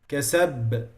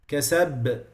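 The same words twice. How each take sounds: Both takes have the same delivery.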